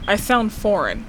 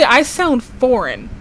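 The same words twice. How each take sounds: First: Said in the usual way. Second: Slow, with I stressed in "I sound foreign". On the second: Shown as a demonstration. Telling people how she comes across, slow with I stressed. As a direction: lean on "I" in "I sound foreign", slowly.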